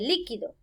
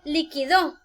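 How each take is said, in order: First: The stress is on the first syllable. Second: The stress is on the last syllable. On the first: It means something fluid. "esta palabra se convierte en esdrújula" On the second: It is the past tense of the verb to settle. "llevan el acento o la tilde en la última sílaba"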